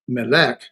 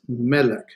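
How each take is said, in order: First: The stress is on the last syllable. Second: The stress is on the first syllable. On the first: The speaker calls it wrong. "It's not melek" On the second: The speaker calls it right. "because the accent's on the first syllable"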